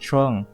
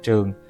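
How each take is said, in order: First: The name is said with an English accent. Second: The name is said with a Vietnamese accent.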